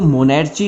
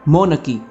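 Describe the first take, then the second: First: The middle consonant is a ch sound. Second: The middle consonant is a k sound. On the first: The speaker calls it wrong. "इसको मोनेर्ची नहीं बोलेंगे, गलत हो जाएगा" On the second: The speaker calls it right. "Simple है मो न की"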